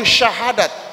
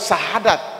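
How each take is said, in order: First: The word begins with an sh sound. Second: The word begins with a plain s sound. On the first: The speaker calls it right. "Yang benar itu syahadat" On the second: The speaker calls it wrong. "Ada juga orang mengatakan sahadat"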